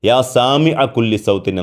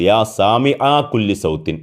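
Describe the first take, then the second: First: The vowel after Sami is short. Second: The vowel after Sami is drawn out long. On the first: O Lord who hears every sound. The speaker calls it right. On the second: It comes to mean two lords who hear every sound. The speaker calls it wrong.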